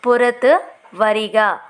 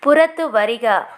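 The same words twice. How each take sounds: First: Slow, clear teacher repeat of పురతు వరిగా; slow model repeat. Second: Said in the usual way. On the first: Shown as a demonstration. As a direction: say it slowly so learners can follow. (నెమ్మదిగా, స్పష్టంగా మళ్ళీ చెప్పడం)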